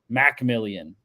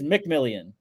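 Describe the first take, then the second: First: The first syllable has a full 'mack' vowel. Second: The first syllable has a reduced 'muh' vowel. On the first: This is how the announcers say the name. The speaker calls it wrong. "they're like Jaquan Macmillian" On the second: This matches how the name is spelled. The speaker calls it right. "There's no A. It is McMillian"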